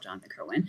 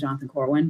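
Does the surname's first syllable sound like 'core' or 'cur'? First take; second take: cur; core. First: The surname's first syllable sounds like 'cur'. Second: The surname's first syllable sounds like 'core'. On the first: This is how the man himself said the name. "he would have called himself Jonathan Kerwin" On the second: This is the modern pronunciation that follows the spelling. "everyone just calls him Jonathan Corwin"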